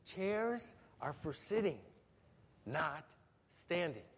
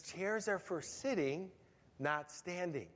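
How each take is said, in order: First: Slow, measured fatherly rule, a bit softer; emphatic dad. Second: Slow, firm fatherly warning, a bit softer; emphatic dad. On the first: Dad setting the rule for his toddler a third time, slow and firm. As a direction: spell out the rule one last time, patient but firm. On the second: Dad telling his toddler to sit, firm and slow. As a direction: lay down the rule like a patient but firm dad. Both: Retold or imitated. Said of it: "So Dad's more emphatic".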